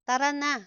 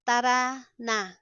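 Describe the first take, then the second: First: Said in the usual way. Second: Words set apart by a pause. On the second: Shown as a demonstration. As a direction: separate each word for learners. Slow model, then natural speed.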